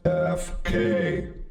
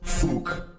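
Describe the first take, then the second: First: Each letter name is said separately. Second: It is said as a single word. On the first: The speaker calls it right. "but rather F K" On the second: The speaker calls it wrong. "it's not pronounced like fook"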